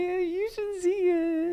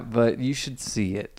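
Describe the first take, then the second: First: The tone sounds positive and enthusiastic. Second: The tone hints at a doubtful hidden opinion.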